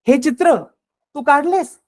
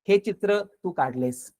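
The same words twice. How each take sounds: First: It is said in a doubting, disbelieving tone. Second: It is said as a plain, neutral statement. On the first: It implies you could not have done such work. "म्हणजे तुला हे शक्य नाही, तुला असं काम जमणार नाही" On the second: It simply states that you drew this picture. "साधा अर्थ"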